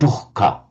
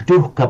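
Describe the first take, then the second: First: A raspy h sound is heard before the k. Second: No h sound is heard before the k. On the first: The speaker calls it right. "a raspy h, like the Greek h sound" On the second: The speaker calls it wrong. "Not dukkha"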